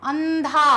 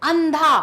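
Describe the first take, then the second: No difference in how they are said.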